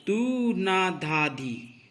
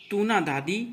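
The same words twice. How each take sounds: First: Each syllable drawn out slowly; slow, separated tabla syllables; slow recitation. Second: Syllables run together quickly; quick, flowing tabla syllables; fast recitation. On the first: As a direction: recite the bols slowly, one by one. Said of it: "आप देखेंगे". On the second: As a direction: rattle the bols off at speed. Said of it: "तीव्र गति से पढ़ेंगे". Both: Shown as a demonstration.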